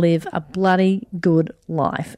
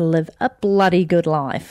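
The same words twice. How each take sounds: First: It is said in the speaker's ordinary accent. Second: It is said in a put-on Australian accent.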